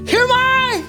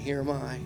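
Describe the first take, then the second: First: It is said urgently and with alarm. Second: It is said calmly and gently. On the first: A startled reply, sensing something is about to happen. "He knew something was about to happen" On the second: A relaxed reply to a familiar call. "the inflection of his voice was so much different when he heard at first"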